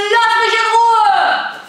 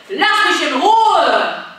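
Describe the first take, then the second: First: Very high, loud, all-out LASS; full-force shout. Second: Loud, slow, firm refusal; loud leave me alone. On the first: Coach giving the refusal with all her strength. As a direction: put all your strength into the yell. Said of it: "alle Kraft zusammennehmen". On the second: Coach modelling a loud refusal for the kids. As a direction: push them away with your voice. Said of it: "in der letzten Runde". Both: Shown as a demonstration.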